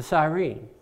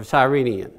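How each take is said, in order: First: "Cyrene" ending without an -ian; alternate pronunciation. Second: "Cyrenian" with an added -ian ending; alternate pronunciation. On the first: Preacher naming Simon's hometown, "Cyrene" in its short form. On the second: Preacher correcting himself on Simon's title, "Cyrenian" with -ian ending. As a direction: say "Cyrenian" as the longer form. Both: Shown as a demonstration. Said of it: "however you want to pronounce that".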